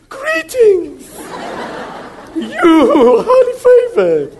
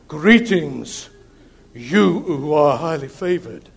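First: It is said in a high, squeaky voice. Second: It is said in a deep voice.

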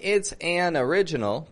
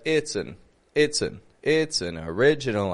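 First: The word an has a full, clear vowel. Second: The word an is reduced to a quick schwa. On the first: The speaker calls it wrong. "But I'm not saying it's an original" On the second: The speaker calls it right. "but it's an original idea"

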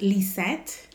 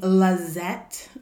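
First: The first syllable has an 'ee' vowel. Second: The first syllable has an 'a' vowel. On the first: "it's pronounced Lisette. Like Lee" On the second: "Lazette with an A"

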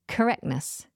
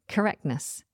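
First: The T sound after the K is dropped. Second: The same.

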